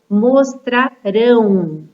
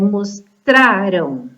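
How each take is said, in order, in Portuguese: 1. A sílaba tônica é a última. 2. A sílaba tônica é a penúltima. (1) "a última sílaba que é mais forte" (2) "a sílaba tônica é a penúltima sílaba"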